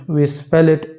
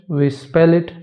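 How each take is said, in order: Both takes have the same delivery.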